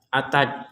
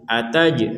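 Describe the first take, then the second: First: The final j stops flat without release. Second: The final j ends with a bouncing release. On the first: The speaker calls it wrong. "tidak sekedar ataj ataj ya" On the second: The speaker calls it right. "ini mantul"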